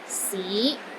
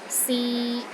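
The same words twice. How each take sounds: First: The pitch starts low and rises to middle. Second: The pitch stays steady in the middle. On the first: It means city. "It starts low, then rises to the middle of your range" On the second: It means try. "in the middle of your range and it is steady"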